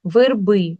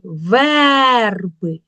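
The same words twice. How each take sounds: First: Said in the usual way. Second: "верби" with a long, loud Е; stress on Е. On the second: Shown as a demonstration. Teacher showing the check form, stressed Е. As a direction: stretch the first syllable of "верби" loudly. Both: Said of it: "Під наголосом чуємо".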